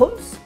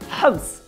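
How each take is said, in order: First: The name is pronounced the English way. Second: The name is pronounced the Arabic way.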